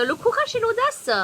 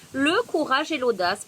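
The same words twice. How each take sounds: First: High, loud card announcement; shouting over wind. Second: Said in the usual way. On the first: Real, not acted. Reads card title over wind.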